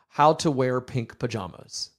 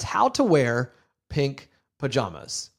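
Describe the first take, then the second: First: It is said with calmer, lower energy. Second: It is said with lively, higher energy. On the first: "So that's one level of energy" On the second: "I'm pouring more energy into this podcast"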